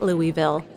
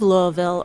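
First: "Louisville" said LOO-ee-vil; outsider pronunciation. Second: "Louisville" said the native way, LOO-uh-vul; local pronunciation. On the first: Host imitates someone from elsewhere, "Louisville" as LOO-ee-vil. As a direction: give "Louisville" a clear EE in the middle. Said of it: "someone who says it Louisville". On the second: Host speaks as to a native of the city, "Louisville" as LOO-uh-vul. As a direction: swallow the middle of "Louisville" as locals do. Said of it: "to correct our pronunciation". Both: Shown as a demonstration.

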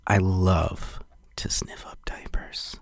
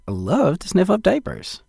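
First: Slow, very soft sleazy whisper. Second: High-pitched enthusiastic endorsement; oversold enthusiasm. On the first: Host overdoing a diaper endorsement, sleazy whisper. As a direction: whisper it slowly, like a creep savoring it. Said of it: "Not sleazy, though". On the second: Host selling a diaper line to producer, enthusiastic. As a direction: sell it hard, pitched up high. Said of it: "You don't think I oversold it?". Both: Shown as a demonstration.

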